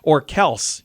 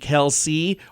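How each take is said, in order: First: The name ends on an 's' sound. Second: The name ends with an 'ee' vowel sound.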